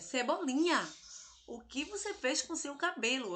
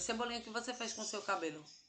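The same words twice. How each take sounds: First: It is said with astonished surprise. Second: It is said flatly, without surprise.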